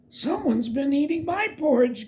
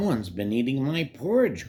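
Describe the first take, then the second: First: It is said in a gasping, breathy voice. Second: It is said in a deep, growling voice.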